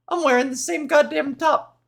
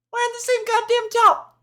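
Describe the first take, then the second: First: Said in the usual way. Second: Mock exasperated voice. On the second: Mock repeat of her own line.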